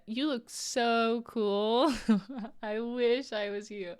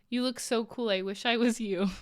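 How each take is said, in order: First: Slow, drawn-out mocking sarcasm; sarcastic quote. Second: Said in the usual way. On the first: Quoting Shania's teasing chat message, slow sarcastic drawl. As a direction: stretch each word out so it sounds insincere. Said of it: "knowing Shania". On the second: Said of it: "and I quote".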